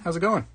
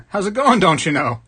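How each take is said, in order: First: Said in the usual way. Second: Louder, higher hammed-up Wisconsin accent. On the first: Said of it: "We don't talk like that over there". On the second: Streamer teasing Michigan viewer in chat, mock Wisconsin accent. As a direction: put on a folksy Wisconsin accent. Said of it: "That's actually Wisconsin".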